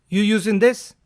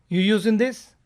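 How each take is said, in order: The two takes are said the same way.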